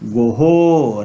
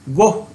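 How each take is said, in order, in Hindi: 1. अंतिम h के बाद प्रतिध्वनित o आता है। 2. शब्द का अंत सादे h ध्वनि से होता है। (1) "परिनिष्ठित संस्कृत में अच्छा उच्चारण गोहो" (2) "यह उच्चारण गलत है"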